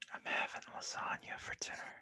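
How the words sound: It is said as a seduction.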